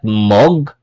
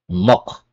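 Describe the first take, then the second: First: The word ends in a g sound. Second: The word ends in a k sound. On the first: The speaker calls it wrong. "Not mog" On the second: The speaker calls it right. "it's mok"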